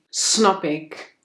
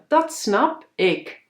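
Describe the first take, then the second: First: The word 'dat' is dropped from the start. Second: The word 'dat' is said at the start. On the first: It is the relaxed way of talking with friends. "dan ga ik los met mijn vrienden en dan zeg ik" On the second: It is the neat, proper way of talking. "nette mensen die zeggen"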